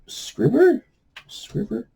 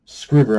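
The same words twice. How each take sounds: First: "Scribber?" tried out with an unsure rise; testing how "Scribber?" sounds, asking; unsure pronunciation. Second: "Scribber." said firmly with a falling end; committing to "Scribber." as the final answer; settled pronunciation. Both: Real, not acted. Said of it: "I'm hoping I'm pronouncing that publisher name right".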